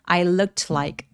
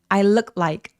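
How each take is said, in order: First: Said slowly with the t lightly sounded. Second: Said quickly with the t sound dropped. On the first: "천천히 발음해서 모든 걸 다 소리 내보자면" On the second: "빨리 발음하면 ... 중간에 t를 날려버리고 발음을 안 해서"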